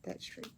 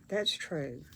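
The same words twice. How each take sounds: First: That's true repeated much softer, almost to herself; softer echo. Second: Said in the usual way. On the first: Real, not acted. Crafter repeating agreement under her breath, much softer. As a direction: murmur That's true again to yourself.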